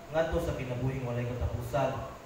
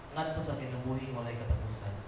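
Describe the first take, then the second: The two takes are said the same way.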